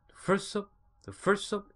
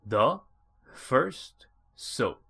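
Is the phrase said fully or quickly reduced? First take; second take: reduced; full. First: The words are run together quickly and weakly. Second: Each word is said clearly and fully. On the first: "이런 식으로 들렸고요" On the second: "이걸 갖다"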